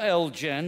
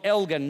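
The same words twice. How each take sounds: First: It is said the local way. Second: It is said the Scottish way. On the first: It sounds like a drink to local listeners. The speaker calls it wrong. "not Elgin. That sounds very alcoholic here" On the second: It names the town in Scotland. The speaker calls it right. "it's Elgin in Scotland"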